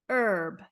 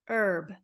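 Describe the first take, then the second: The two takes are said the same way.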